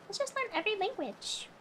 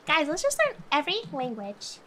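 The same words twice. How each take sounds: First: "Let's just learn every language" repeated higher and much softer; soft echo. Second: Said in the usual way. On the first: Acted. Echoing her own idea to chat, soft and higher. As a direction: murmur it back to yourself, dreamy. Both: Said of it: "repeated line".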